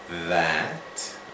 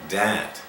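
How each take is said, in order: First: The word starts with a vibrating th sound. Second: The word starts with a hard d sound. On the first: The speaker calls it right. "today try to focus and make this sound" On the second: The speaker calls it wrong. "If you still say day, dat, dan, or anything like that"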